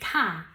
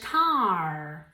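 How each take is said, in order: First: Said in an Australian accent with little R. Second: Said in an American accent with a strong R. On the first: "In Australian English, this is car" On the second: "in American English, car. Ahí sí que pronuncian más la R"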